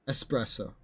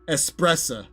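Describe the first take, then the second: First: The word ends in a full o sound. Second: The word ends in a reduced uh sound. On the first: The word is pronounced carefully on its own. "that's if I'm trying to pronounce the word espresso" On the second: This is how it comes out in casual speech. "it'd probably come out more like espressa with my accent"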